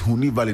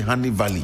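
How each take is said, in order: First: The first word sounds like 'hoo-nee'. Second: The first word sounds like 'honey'. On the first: The speaker calls it right. "it's Huni Valley" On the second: The speaker calls it wrong. "They say Honey Valley"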